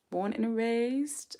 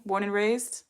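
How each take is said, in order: First: Slow, drawn-out British "Born and raised?"; slow mock British question; mock British accent. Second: Said in the usual way. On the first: Shown as a demonstration. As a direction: play at a posh British accent, stretching each word. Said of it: "I'm curious, darling".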